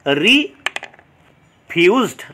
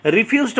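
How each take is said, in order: First: "রিফিউজড" very slow, long gap after the first syllable; two separate syllables. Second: Said in the usual way. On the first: Shown as a demonstration. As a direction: split "রিফিউজড" in two with a pause. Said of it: "syllable দেখতে পাচ্ছি". ("রিফিউজড" দুই ভাগে, খুব ধীরে) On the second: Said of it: "এখানে দুটো".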